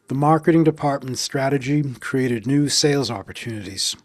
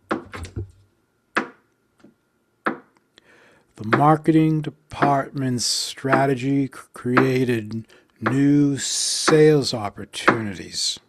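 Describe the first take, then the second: First: It is spoken at a normal pace. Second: It is spoken slowly, beat by beat.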